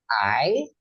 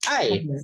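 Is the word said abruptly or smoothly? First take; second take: smoothly; abruptly. First: The word is said without a sharp, forceful drop. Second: The word is said with a sharp, forceful drop. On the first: It means short. "ketika teman-teman salah sebut nada" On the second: It means to love. "jadi I jadi hentakin"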